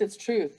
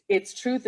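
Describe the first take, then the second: First: "truth" settled down with a firm fall; falling stress on truth. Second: "truth" lifted upward as a question-like rise; rising stress on truth. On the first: Speaker to audience, second take falling firmly on "truth". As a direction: put a final full stop on "it's truth". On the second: Speaker to audience, first take rising on "truth". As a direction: let "it's truth" climb at the end. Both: Shown as a demonstration. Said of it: "Meaning it's".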